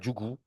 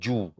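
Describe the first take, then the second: First: The middle G sound is pronounced. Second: The middle G sound is dropped. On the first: This is the Bambara form of the word. "en bambara, on dira Djougou" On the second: This is the Malinké form of the word. "en malinké, on dit Djou"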